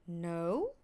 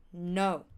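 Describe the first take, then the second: First: "no" rising sharply at the end; questioning "no". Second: "no" short, low and final. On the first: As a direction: lift "no" into a question. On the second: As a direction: say "no" as a brief statement. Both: Shown as a demonstration. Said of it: "pronouncing the word no in different way".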